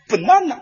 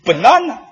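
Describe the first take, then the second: First: Banana as "pen-nana", teacher style; showy banana. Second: Said in the usual way. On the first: Shown as a demonstration. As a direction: spell out banana proudly for the pupil. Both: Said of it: "你看发音".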